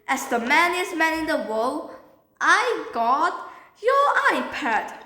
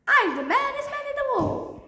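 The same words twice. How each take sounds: First: Proud, emphatic declaration; boastful announcement. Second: High, sing-out triumphant brag; high-pitched boast. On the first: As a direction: announce yourself as the hero. Boastful announcement of finding iPad. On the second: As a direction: crow it out far above your usual pitch. Triumphant boast after handing over iPad. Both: Acted.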